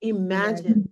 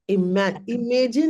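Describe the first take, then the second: First: The word is pronounced with its standard sounds. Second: The word is pronounced with altered sounds. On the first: The speaker calls it right. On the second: The speaker calls it wrong.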